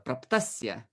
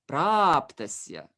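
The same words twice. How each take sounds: First: The first syllable is short and unstressed. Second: The first syllable is long and stressed. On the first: The speaker calls it wrong. "Many many attempted to say it like uh" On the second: The speaker calls it right. "We have one long vowel here, and it will naturally um, attract the stress"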